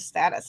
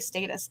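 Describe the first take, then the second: First: It is said with an American accent. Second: It is said with a British accent.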